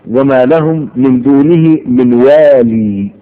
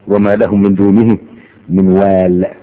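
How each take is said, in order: First: The last word ends with a long ee vowel. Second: The last word ends on a bare consonant. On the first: This is the pause form of another reading. "وحين الوقف تقف على الياء" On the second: This is the pause form of most readers. "يوقف عليها بالسكون"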